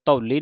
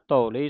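First: "ਧੌਲੀ" in the mistaken reading; mistaken pronunciation. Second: "ਧੌਲੀ" with a long open au; corrected pronunciation. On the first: Teacher warns against a misreading, mistaken "ਧੌਲੀ". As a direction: show the slip on "ਧੌਲੀ". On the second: Teacher models the correct reading, long au in "ਧੌਲੀ". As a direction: draw out the au in "ਧੌਲੀ". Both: Shown as a demonstration. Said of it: "ਨਹੀਂ ਕਹਿ ਦੇਣਾ".

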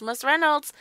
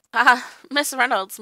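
First: Said in the usual way. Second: Chuckling through the name; laughing. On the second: Retold or imitated. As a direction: laugh as you say it. Dan quotes Hobden, laughing.

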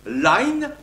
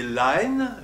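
First: Line said alone, louder and higher, as lah-een; line pronounced clearly as a diphthong, louder; line held up as an example. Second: Line, run quickly inside the sentence as lah-een; line pronounced lightly as a diphthong; line said in passing. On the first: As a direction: set line apart and sound out its diphthong. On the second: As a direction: tuck line into the sentence, unstressed. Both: Shown as a demonstration. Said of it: "il se prononçait line".

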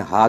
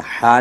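First: हा as an ordinary light h, without throat constriction; mispronounced haa. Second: हा as a breathy Arabic ḥ from mid-throat; correct Arabic haa. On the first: Teacher showing how it slips out, हा as plain h. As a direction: let हा out as a plain Urdu "ha". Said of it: "हा करके निकलता है". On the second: Teacher showing the intended letter, हा from mid-throat. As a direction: tighten the middle throat on हा. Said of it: "वस्ते हल्क से इसको निकालना है". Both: Shown as a demonstration.

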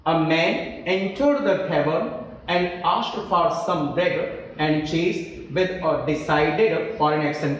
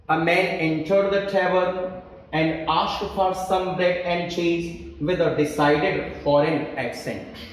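First: Slow, measured reading of the same sentence again; teacher rereading the sentence for the class slowly; slow dictation. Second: Slow, measured reading of the faulty sentence; teacher dictating the exam sentence slowly; slow dictation. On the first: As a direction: read it word by word, unhurried, for the class. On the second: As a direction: read it out word by word so students can spot the error. Reads example sentence slowly. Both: Shown as a demonstration.

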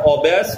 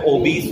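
First: ओबेस with an open "bess" ending; second syllable of ओबेस said with a short e, like "bess"; wrong pronunciation. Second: ओबीस with a long "ee" in the second syllable; correct pronunciation. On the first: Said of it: "इसका उच्चारण ओबेस नहीं होता है". (ओबेस में दूसरा अक्षर "बे", गलत उच्चारण) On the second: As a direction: say ओबीस ending like "beese". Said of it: "ओबीस होता है". (ओबीस में लंबी "ई", सही उच्चारण) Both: Shown as a demonstration.

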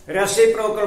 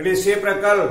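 First: रेसिप्रोकल said as "rasiprokal", open first vowel; the easy "rasiprokal" way we used to say रेसिप्रोकल; old way we said it. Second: रेसिप्रोकल said as "risiprekal", short i and e; the proper "risiprekal" for रेसिप्रोकल, a bit emphatic; correct pronunciation. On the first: Teacher shows students the old pronunciation, "rasiprokal". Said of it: "हम इसको रेसिप्रोकल बोलते थे". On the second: Teacher gives students the correct "risiprekal". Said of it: "ये actually होता है रेसिप्रोकल". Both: Shown as a demonstration.

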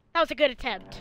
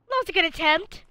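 First: Said in the usual way. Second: High mock-cheerful praise; "That was a good attempt." sung up high and sarcastic. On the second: Shown as a demonstration. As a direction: sell the fake compliment brightly.

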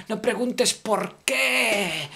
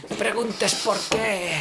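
First: "por qué" said as "porc... qué", slow; split por qué. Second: Said in the usual way. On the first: Shown as a demonstration. (pronuncia "por qué" como "porc qué", despacio) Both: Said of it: "no digas porc".

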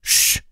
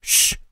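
First: A harder, more insistent hissed shh; stronger shush. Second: A short hissed shh; sharp shush. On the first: Peltonen hushing Klasu a second time, firmer hissed shh. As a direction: shush him again, a bit more forcefully. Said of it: "sähähti uudestaan nyt vähän voimakkaammin". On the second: Peltonen hushing Klasu in the dark house, hissed shh. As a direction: hiss for silence, quick and sharp. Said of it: "Peltonen sähähti". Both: A narrator's reading.

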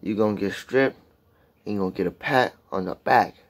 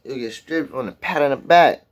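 First: Lyric restated in separate, deliberate phrases; measured, careful recital with pauses; careful restatement. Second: Reciting the lyric, tripping over words; halting attempt at quoting lyrics; stumbling lyric recital. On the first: Shown as a demonstration. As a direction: spell it out phrase by phrase, pausing between. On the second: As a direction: recite the line as if tongue-tied. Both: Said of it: "Sound like I'm stuttering and shit".

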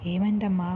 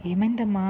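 First: Said in the usual way. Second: Louder, lightly tearful plea; tearful question. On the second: A narrator's reading. Mother asks her injured daughter what happened, tearfully. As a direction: ask with a rising touch of anguish, louder. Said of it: "అంటూ ఏడుస్తూ అడిగింది".

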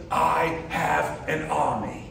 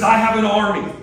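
First: Put-on British accent. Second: Loud, high menacing villain line. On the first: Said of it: "Kind of like in a British accent that probably sounds a lot different". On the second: Retold or imitated. Preacher voicing Loki's threat, loud and menacing. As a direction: boom it out like the villain Loki. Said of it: "Loki, the villain, says".

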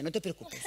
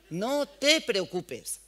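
First: Said in the usual way. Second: No te preocupes stretched out very slowly, louder and cooing; imitating soothing shop girl. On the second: Shop girl calming the boy while doing his eyeliner, slow cooing mock voice. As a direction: drawl No te preocupes out like you're calming a child. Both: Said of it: "Y la otra haciéndole con el eyeliner".

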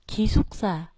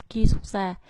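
First: Ki xuất ra with Ki pitched low, then rising; low start on Ki. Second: Ki xuất ra with ki unlowered, Vietnamese-style; Vietnamese-sounding Korean. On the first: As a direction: drop the voice on Ki in Ki xuất ra. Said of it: "phải đọc thấp xuống". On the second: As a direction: read ki xuất ra with a Vietnamese accent. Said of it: "thì rất là Việt Nam". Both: Shown as a demonstration.

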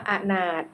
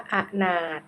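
First: Said in the usual way. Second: อะนาถ split as อะ-นาถ; syllable-by-syllable reading. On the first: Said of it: "คำว่าอนาถ". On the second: Shown as a demonstration. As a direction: sound out อะนาถ in two separate syllables. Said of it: "อ่านว่าอะนาถ".

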